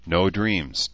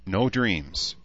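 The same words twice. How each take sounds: First: A touch of sleepy vagueness; muzzy. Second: Said in the usual way. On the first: A narrator's reading. Human woman drifting off to sleep, muzzy. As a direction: echo it drowsily, understated. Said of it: "Danae said muzzily".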